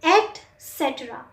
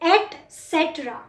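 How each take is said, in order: No difference in how they are said.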